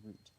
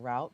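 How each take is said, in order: First: It is said with a British accent. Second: It is said with an American accent.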